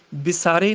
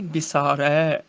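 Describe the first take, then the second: First: ਵਿਸਾਰੇ ending in close e; wrong vowel shown. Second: ਵਿਸਾਰੈ slow, ending in open ai; correct vowel shown. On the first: Teacher showing the misreading, ਵਿਸਾਰੇ with close e. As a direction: end ਵਿਸਾਰੇ on narrow ay. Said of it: "ਵਿਸਾਰੇ ਨਹੀਂ". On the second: Teacher correcting students, slow ਵਿਸਾਰੈ with open ai. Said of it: "ਰਾਰੇ ਨੂੰ ਦੁਲਾਵਾਂ ਲੱਗੀਆਂ ਨੇ". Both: Shown as a demonstration.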